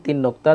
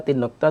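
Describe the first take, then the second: The two takes are said the same way.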